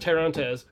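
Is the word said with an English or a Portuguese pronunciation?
English. The word is read with an English pronunciation. "You could read it as"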